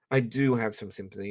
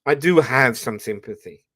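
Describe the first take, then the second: First: Said in the usual way. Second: "do" pressed louder; stress on DO. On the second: Real, not acted. Admitting to viewers, insisting on "do". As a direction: lean on "do" to insist.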